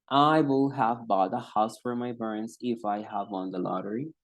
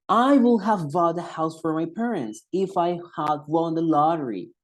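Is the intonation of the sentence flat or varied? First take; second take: flat; varied. First: It is said in one flat tone. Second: It moves across several different pitch levels. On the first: The speaker calls it wrong. "que hablen en un mismo tono" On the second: The speaker calls it right. "Hay una serie de entonaciones que me permite escucharme mucho mejor"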